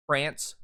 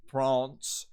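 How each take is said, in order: First: "France" with the A of "cat"; American short A in "France"; American pronunciation. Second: "France" with a broad "ah", like "Frahnce"; long open A in "France"; High British pronunciation. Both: Shown as a demonstration. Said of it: "will turn into".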